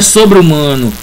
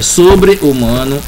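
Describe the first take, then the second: First: The final e runs straight into humano. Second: The final e stays separate from humano. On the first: The speaker calls it wrong. "não tem como você juntar esse é com o sobre-humano" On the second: The speaker calls it right. "É sobre-humano"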